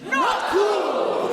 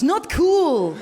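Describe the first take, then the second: First: Firm call. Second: Loud Dutch accent rebuke. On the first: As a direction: call it out firmly. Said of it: "try it as an audience". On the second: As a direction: say it like a Dutch person. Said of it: "It sounds quite Dutch". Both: Shown as a demonstration.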